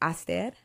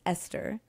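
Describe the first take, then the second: First: The name is pronounced with Tigrinya sounds. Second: The name is pronounced with English sounds. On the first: "So the way we pronounce it is Aster" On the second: "English English pronunci- pronunciation is Esther"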